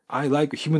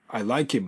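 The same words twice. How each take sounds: First: The h in him is pronounced. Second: The h in him is dropped and linked.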